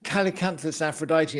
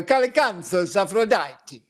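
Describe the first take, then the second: First: Said in the usual way. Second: Slower, higher Italian-style Latin; drawn-out Italian pronunciation of the plant name; Italian accent. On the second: Shown as a demonstration. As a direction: relish it as an Italian would. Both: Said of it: "instead I go".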